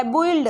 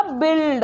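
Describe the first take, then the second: First: बोइल्ड spelt out slowly as bo-ild; बोइल्ड with u and i pulled apart; drawn-out split vowel. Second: बिल्ड blended quickly into bild; बिल्ड with one short i; said fast. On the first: Teacher to students, sounding out build before saying it fast. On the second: Teacher to students, saying build the quick, real way. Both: Shown as a demonstration. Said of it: "इसको जल्दी से बोलेंगे तो ये क्या बनेगा".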